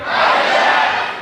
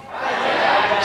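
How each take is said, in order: First: HI JACK called out louder. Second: Said in the usual way. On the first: Shown as a demonstration. Audience told to say Hi, Jack louder. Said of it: "Say it louder". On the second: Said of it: "How would you say hello".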